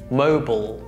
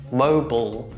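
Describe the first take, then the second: First: It is said with American pronunciation. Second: It is said with American pronunciation.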